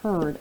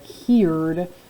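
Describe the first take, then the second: First: The vowel is said like 'er'. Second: The vowel is said like 'ear'. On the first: The speaker calls it right. "flip that sound to an er" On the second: The speaker calls it wrong. "that doesn't sound like a word I know"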